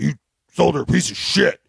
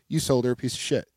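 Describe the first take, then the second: First: It is said in a hostile, accusing tone. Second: It is said in a friendly, easygoing tone. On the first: It is meant as an attack. "his tone wasn't like" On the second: It is a plain statement of fact, not an insult. "his tone was friendly"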